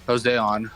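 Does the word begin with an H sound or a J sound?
J sound. The word begins with a J sound.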